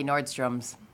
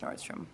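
First: The name ends with an added s sound. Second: The name ends without any added s sound. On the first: The speaker calls it wrong. "they'll say Nordstrom's" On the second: The speaker calls it right. "It's Nordstrom"

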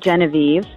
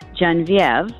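First: The name is pronounced the English way. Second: The name is pronounced the French way.

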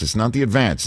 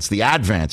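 First: The stress is on the second syllable. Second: The stress is on the first syllable. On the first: The speaker calls it wrong. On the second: The speaker calls it right. "you have to put the accent on the first syllable"

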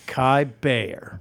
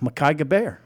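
First: The surname begins with a B sound. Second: The surname begins with a hard G sound. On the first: The speaker calls it right. "G silent" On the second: The speaker calls it wrong. "Did I say it right?"

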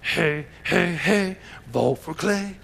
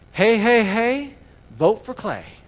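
First: It is said imitating Fat Albert's voice. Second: It is said in a plain, ordinary voice.

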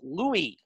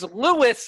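First: The name is said the French way, without s. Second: The name is said like English Lewis, with s. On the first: "it's French. It's Louis" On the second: "like Rick Lewis"

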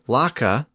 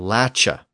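First: The middle consonant is a hard k sound. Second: The middle consonant is a ch sound. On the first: This is the form it did not become. "instead of it becoming lacha" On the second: This is the form it actually became. "the final consonant would shift to the CH sound"

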